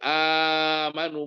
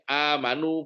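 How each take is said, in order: First: The long vowel is held for four beats. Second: The long vowel is held for two beats. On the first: "tawasul empat harokat" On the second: "qashar dua harokat"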